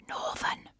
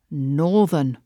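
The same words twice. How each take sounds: First: "Northern" whispered as if a dirty word; hushed, voiceless mock shock; mock-scandalised whisper. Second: "northern" stretched out slowly; slow, lingering emphasis on "northern"; drawn-out NORTHERN. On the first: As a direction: whisper it in pretend horror. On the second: Retold or imitated. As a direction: draw out the word "northern" for effect. Mock-reading the listener's charge.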